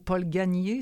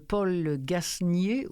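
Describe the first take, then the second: First: The S in the surname is silent. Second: The S in the surname is pronounced.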